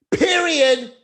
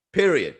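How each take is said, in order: First: Much higher and louder, a big final word; high loud emphatic period. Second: Said in the usual way. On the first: Acted. Closing his dad joke point, a hammed-up loud high declaration. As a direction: slam it home, mock-dramatic.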